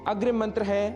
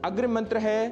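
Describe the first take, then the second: No difference in how they are said.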